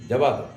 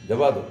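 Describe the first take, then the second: No difference in how they are said.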